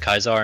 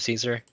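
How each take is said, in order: First: The name begins with a hard K sound. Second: The name begins with an S sound. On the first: This is the original pronunciation. "I pronounce it Kaisar" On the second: This is the modern pronunciation. "that's the modern pronunciation"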